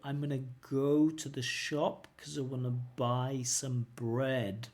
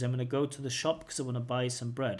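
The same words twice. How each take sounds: First: The words run together but at slow speed. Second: The words run together quickly without breaks. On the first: "I can say it slowly but connected" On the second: "the fully connected speech is"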